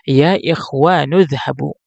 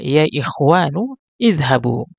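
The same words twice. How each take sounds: First: The words run together, the first vowel dropped. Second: A break comes before idhabu, its first vowel pronounced. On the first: "kalau kita sambung" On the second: "kalau kita uh, penggal"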